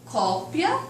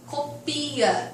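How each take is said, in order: First: The stress is on the first syllable. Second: The stress is on the second syllable. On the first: It names a thing, a copy. "enquanto substantivo" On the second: It is an order to copy something. "enquanto verbo"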